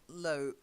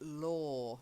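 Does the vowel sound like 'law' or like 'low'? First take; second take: low; law. First: The vowel sounds like the one in 'low'. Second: The vowel sounds like the one in 'or'. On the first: The speaker calls it wrong. "It's not low, low" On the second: The speaker calls it right. "It's law, like or"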